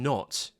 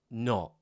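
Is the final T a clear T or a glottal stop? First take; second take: clear T; glottal stop. First: The final T is clearly released. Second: The final T becomes a glottal stop. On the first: "with that clean T" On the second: "I might say not"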